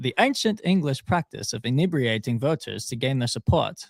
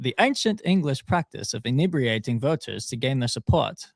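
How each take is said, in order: First: It is read in a put-on British accent. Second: The same.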